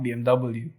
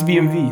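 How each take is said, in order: First: The W is said as double-u. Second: The W is said with a V sound.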